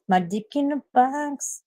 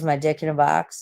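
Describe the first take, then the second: First: Slow, high sung snippet; sung, sung song quote. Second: Said in the usual way. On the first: Pretend. Tired streamer quoting a comic song, sung. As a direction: sing it slowly, higher than speech.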